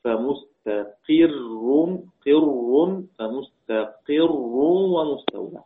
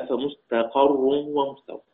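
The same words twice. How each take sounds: First: فمستقر read as "fa-mustaqirrun", slow, with an i after the qaf; kasra on the qaf. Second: فمستقر read as "fa-mustaqarrun", slow, with an a after the qaf; fatha on the qaf. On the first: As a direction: draw out فمستقر with kasra on the ق, "qirr". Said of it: "بكسر القاف". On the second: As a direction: recite فمستقر with fatha on the ق, "qarr". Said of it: "بفتحها". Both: Shown as a demonstration.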